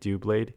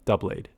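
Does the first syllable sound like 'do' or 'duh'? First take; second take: do; duh. First: The first syllable sounds like 'do'. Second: The first syllable sounds like 'duh'. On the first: The speaker calls it right. "I'm reading it do blade" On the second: The speaker calls it wrong. "like double, like duh blade"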